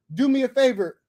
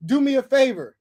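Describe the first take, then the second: No difference in how they are said.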